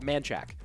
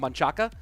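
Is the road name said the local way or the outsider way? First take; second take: local; outsider. First: The name is said shortened, the local way. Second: The name is said in full, the outsider way. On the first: The speaker is from the area. "people from locals call it Manchac" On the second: The speaker is not originally from the area. "there's a road called Manchaca"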